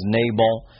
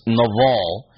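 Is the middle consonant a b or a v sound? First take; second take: b; v. First: The middle consonant is a b sound. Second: The middle consonant is a v sound. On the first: This is the usual transliterated form. The speaker calls it wrong. "It's transliterated as Nabal" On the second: This is the actual Hebrew form. The speaker calls it right. "but it's Naval"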